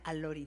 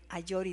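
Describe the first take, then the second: First: The middle consonant sounds like an 'l'. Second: The middle consonant sounds like a 'y'. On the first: This is the proper pronunciation of the name. The speaker calls it right. "ahora sé que se pronuncia Alori" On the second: This is how the local congregation used to say it. The speaker calls it wrong. "decíamos nosotros"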